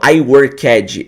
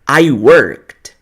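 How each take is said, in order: First: The -ed ending is pronounced as an emphatic extra syllable. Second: The -ed ending is only a subtle final sound. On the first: The speaker calls it wrong. "eu não falo I worked" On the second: The speaker calls it right. "eu falo I worked"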